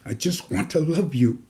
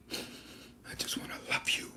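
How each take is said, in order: First: Said in the usual way. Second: Hushed breathy whisper, almost no voice. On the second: Acted. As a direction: breathe it to them like a secret. Tender repeated line, whispered.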